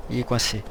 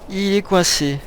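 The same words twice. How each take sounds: First: Soft, low remark to oneself; note it quietly under your breath; muttered observation. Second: Higher-voiced, incredulous repeat; exasperated repeat. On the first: Notices companion stuck, first take. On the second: Repeats it in disbelief. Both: Real, not acted.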